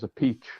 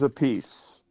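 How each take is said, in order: First: The name ends in a 'peach' sound. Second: The name ends in a 'peace' sound. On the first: This is the Italian pronunciation. "the Italian way" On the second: This is a changed version adopted later. "he pronounced it a piece"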